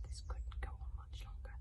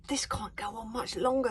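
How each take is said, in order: First: Softer, breathy whispered narration; hushed whisper. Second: Louder urgent worry, stress on longer; anxious thought. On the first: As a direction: drop to a hush for the grim truth. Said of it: "Hiccup was right". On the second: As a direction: push it out with mounting urgency. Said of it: "thought Hiccup". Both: A narrator's reading.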